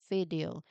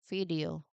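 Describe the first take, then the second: The two takes are said the same way.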